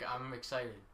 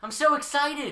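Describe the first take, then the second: First: It is said flatly, with little enthusiasm. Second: It is said with lively enthusiasm.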